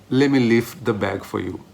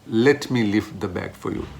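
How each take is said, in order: No difference in how they are said.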